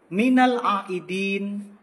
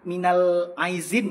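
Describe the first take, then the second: First: The second word is said with a d sound. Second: The second word is said with a z sound. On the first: The speaker calls it right. "Yang benar itu minal aidin, huruf ain, huruf dal" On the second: The speaker calls it wrong. "Jangan lagi ngomong minal a, minal aizin ya"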